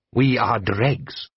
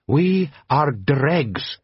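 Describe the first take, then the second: First: Slow, solemn and even; Jabbar's slow saying. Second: Slow, grave foreign voice; reproachful Jabbar. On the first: Jabbar to Blue Eyes, slow and solemn. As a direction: say it like a proverb. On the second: A desert chieftain scolding the watchmen, slow and grave. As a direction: lay down the rebuke slowly. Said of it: "said Jabbar reproachfully". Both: A narrator's reading.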